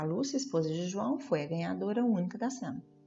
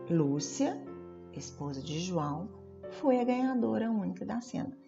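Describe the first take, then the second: First: The words run on without any pauses. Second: Short pauses set off the middle phrase. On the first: The speaker calls it wrong. "Fica até esquisito, dá até falta de ar de falar" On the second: The speaker calls it right. "uma pausa"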